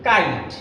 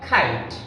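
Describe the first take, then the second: First: The k is said without a puff of air. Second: The k is said with a puff of air. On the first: The speaker calls it wrong. "Generally আমরা এটাকে বলি কাইট" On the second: The speaker calls it right. "Appropriate pronunciation will be খাইট"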